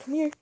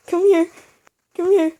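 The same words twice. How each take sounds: First: Said in the usual way. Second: Loud, high taunting call; taunting shout. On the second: Real, not acted. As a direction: yell at him to come fight. Calling enemy to fight, rising.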